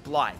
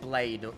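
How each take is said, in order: First: The name rhymes with 'scythe'. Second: The name rhymes with 'made'. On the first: The speaker calls it right. "It's Blythe, right?" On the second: The speaker calls it wrong. "It's not Blade"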